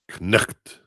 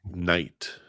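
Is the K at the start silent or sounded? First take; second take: sounded; silent. First: The K at the start is sounded. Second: The K at the start is silent. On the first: This is the old pronunciation. "back in the day, it would have been pronounced knucht" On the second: This is the modern pronunciation. "We have the silent K"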